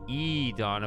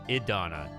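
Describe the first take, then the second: First: The first vowel is a long E sound. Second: The first vowel is a short I sound. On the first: The speaker calls it wrong. "they don't really say E Donna" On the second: The speaker calls it right. "like almost like a short I"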